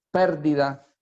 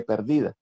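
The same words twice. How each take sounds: First: "pérdida" with stress on the PER, like PÉR-di-da; stress on first syllable. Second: "perdida" stressed on DI, per-DI-da; stress on second syllable. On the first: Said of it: "con acento en la E pérdida". (acento en la primera sílaba: PÉR-di-da) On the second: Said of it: "pérdida que perdida". (acento en la segunda sílaba: per-DI-da) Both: Shown as a demonstration.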